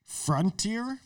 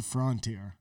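First: "Frontier" as frun-teer, rising question; FRUN-tier pronunciation. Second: "Frontier" as frawn-teer; FRON-tier pronunciation. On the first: Trying the friends' version, "Frontier" as questioning frun-teer. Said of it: "As opposed to Frontier". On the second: Contrasting with the friends' version, "Frontier" as frawn-teer. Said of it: "As opposed to". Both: Shown as a demonstration.

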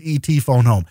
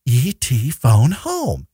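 First: Said in the usual way. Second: Slow, drawn-out alien croak of the line; imitating the famous line. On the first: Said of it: "it's always". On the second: Friend mimics the movie line for the podcast, slowly. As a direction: stretch each word out slowly like the movie. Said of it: "Drew Barrymore goes".

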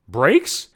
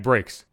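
First: Imitated baffled question, rising at the end; stunned echo. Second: Said in the usual way. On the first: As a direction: repeat BRAKES as a puzzled question, pitch lifting. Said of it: "he was stunned that I said brakes". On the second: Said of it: "that I said brakes".

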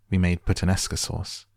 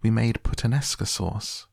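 First: Said in the usual way. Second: Higher-pitched pleading protest; crying out. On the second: A narrator's reading. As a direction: cry it out as a girl's protest. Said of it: "Violet cried".

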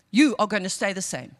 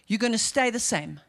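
First: YOU punched louder, set apart from the rest; emphatic You, full unhurried "are"; stress on YOU. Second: Said in the usual way. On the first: Real, not acted. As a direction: hit the word You, then drop lower.

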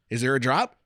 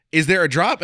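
First: Said in the usual way. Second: Anxious louder repeat. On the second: Retold or imitated. Repeated nervous question louder.

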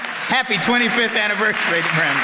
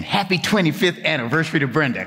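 First: Higher-pitched group cheer; leading the congregation. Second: Said in the usual way. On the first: Real, not acted. Preacher getting the congregation to greet Brenda, chanted in chorus. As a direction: lead everyone in a raised-pitch congratulation. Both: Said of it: "Can you all say that to Brenda?".

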